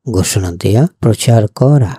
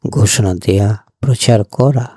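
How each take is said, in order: Both takes have the same delivery.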